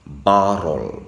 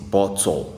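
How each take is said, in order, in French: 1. Le mot est dit fort, avec force. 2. Le mot est dit doucement, sans force. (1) "je dis" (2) "je ne dis pas aussi"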